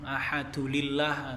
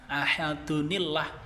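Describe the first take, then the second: First: An L sound links ahad to illah. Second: An N sound links ahad to illah. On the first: The speaker calls it wrong. "Kebanyakan pembaca Al-Quran sering salah" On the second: The speaker calls it right. "maka nun wikoyah dibaca di ahadunillah"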